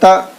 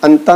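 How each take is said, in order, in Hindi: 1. "n" की आवाज़ नाक में छुपी होती है। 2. "n" की आवाज़ साफ़ और खुलकर बोली जाती है। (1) "इतना छुपा कर आपको पढ़ना" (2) "अंता नहीं पढ़ेंगे, नून की आवाज़ जाहिर नहीं होनी चाहिए"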